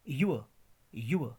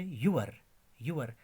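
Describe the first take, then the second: First: युअ with silent r; corrected pronunciation. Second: यूअर with the final r sounded; common mispronunciation. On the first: Teacher correcting the usual reading, corrected pronunciation. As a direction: say युअ as a gliding 'yu-uh'. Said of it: "but this is". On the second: Teacher quoting how people usually say it, common mispronunciation. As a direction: say यूअर as 'yoo-ar'. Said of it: "हम बोलते हैं आमतौर पे". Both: Shown as a demonstration.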